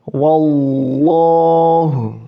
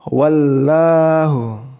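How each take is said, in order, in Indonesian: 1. L ganda dibaca tebal, lidah mendekati langit-langit. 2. L ganda dibaca tipis, lidah tetap rendah. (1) "Jadi lam tasdidnya itu dibaca tebal" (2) "Bukan wallahu. Bukan gitu ya teman-teman"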